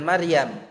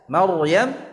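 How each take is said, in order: First: The r is pronounced light and thin. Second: The r is pronounced heavy and thick. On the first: The speaker calls it wrong. "bukan Maryam" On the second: The speaker calls it right. "Maryam tebal"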